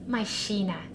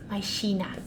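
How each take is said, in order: No difference in how they are said.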